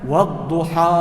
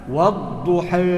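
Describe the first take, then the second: First: The final vowel is a fully open 'a'. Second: The final vowel leans slightly toward 'e'. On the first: "Yang pertama dengan fathah" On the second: "Yang kedua dengan taklil"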